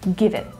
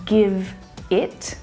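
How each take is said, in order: First: The two words are linked smoothly together. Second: The two words are said separately and carefully. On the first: The speaker calls it right. "all of the words that end in the consonant sounds are actually linking to the ones that follow" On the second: The speaker calls it wrong. "So instead of give it"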